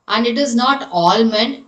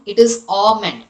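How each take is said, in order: First: Almond with the L sounded, /ɔlmən/; almond, L pronounced; wrong almond. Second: Almond said /ɔmən/, no L; almond with a silent L. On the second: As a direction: drop the L in almond. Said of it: "That is A H sound". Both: Shown as a demonstration.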